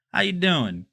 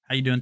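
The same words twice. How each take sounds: First: Put-on loud, higher stab at a New York accent; badly faked New York accent; attempted New York accent. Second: Said in the usual way. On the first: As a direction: try a New York accent, not quite getting it. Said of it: "I'm trying to do the New York accent". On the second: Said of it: "trying to do the New York accent".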